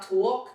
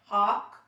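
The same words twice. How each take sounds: First: "talk" with a rounded aw, like tawk; "talk" with the heavy Queens aw; New York vowel. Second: "talk" with an open ah, like tahk; speech-class "talk", unrounded tahk; corrected vowel. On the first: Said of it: "when we say our vowels, like, it's not". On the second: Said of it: "it's not talk, it's". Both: Shown as a demonstration.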